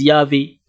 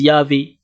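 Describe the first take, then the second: First: The middle consonant is a v sound. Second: The middle consonant is a v sound.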